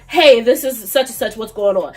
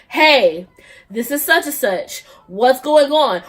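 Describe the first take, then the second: First: "Hey, this is such and such, what's going on" run together without pauses; all in one. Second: "Hey", "this is such and such", "what's going on" each set apart by pauses; separate bursts. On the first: Demonstrating a single text to viewers, one continuous run. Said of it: "in one text". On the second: Demonstrating an annoying texter to viewers, choppy separate messages. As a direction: break after "Hey" and after "such and such", like three texts. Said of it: "multiple texts at one time". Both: Shown as a demonstration.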